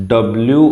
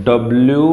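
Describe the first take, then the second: The two takes are said the same way.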